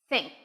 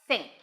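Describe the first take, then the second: Both takes have the same delivery.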